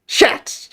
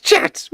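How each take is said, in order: First: Breathy hissed shout with no voice; whispered shout. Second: Very high, loud squealed shout. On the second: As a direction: squeal it as high as you can. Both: Pretend. Hyping shots on stream.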